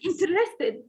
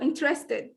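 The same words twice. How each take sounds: First: The unstressed middle vowel is pronounced. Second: The unstressed middle vowel is dropped. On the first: The speaker calls it wrong. "I can't say interested" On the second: The speaker calls it right. "No, interested"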